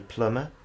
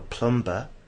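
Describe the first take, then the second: First: The b is silent in the middle. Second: The b is pronounced in the middle. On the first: This is how speakers actually say it. The speaker calls it right. "Maybe the speaker will say plumber" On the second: The pronunciation was guessed from the spelling. The speaker calls it wrong. "You're going to be waiting for plumber, but plumber doesn't exist"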